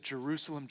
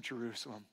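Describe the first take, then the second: First: Said in the usual way. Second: Jerusalem repeated much softer, falling away. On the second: Acted. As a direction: let the second Jerusalem sink, lamenting. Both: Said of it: "And he said".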